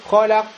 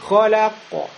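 First: The final consonant is cut off with no echo. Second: The final consonant ends with a short echo vowel. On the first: The speaker calls it wrong. "непонятно в конце какая буква" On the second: The speaker calls it right. "Мы говорим"

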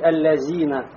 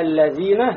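First: The middle consonant is a 'z' with the tongue inside. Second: The middle consonant is 'th' with tongue between teeth. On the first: The speaker calls it wrong. "Не надо говорить аллазина" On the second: The speaker calls it right. "Вот разница, да, аллазина"

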